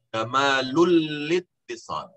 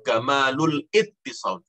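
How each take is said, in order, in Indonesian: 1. Bunyi 'l' langsung menyambung ke kata kedua. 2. Kata kedua dimulai dengan vokal 'i'-nya sendiri. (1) "Tapi kamalul littisal ... bacanya begitu" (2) "Jangan jangan kamalul ittisal, jangan"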